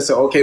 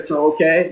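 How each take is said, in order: First: Said in the usual way. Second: "okay" with a rising question tune. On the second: Retold or imitated. Host quotes guest's reply as a rising question. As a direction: ask "So, okay?" with a rise on okay. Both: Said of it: "You said".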